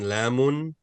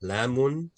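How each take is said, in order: The two takes are said the same way.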